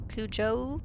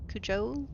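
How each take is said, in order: Both takes have the same delivery.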